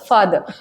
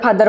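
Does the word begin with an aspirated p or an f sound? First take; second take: f; aspirated p. First: The word begins with a lip-teeth f sound. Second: The word begins with a breathy p sound. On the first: The speaker calls it right. "It's फादर" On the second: The speaker calls it wrong. "आम्ही फादर फादर म्हणायचो"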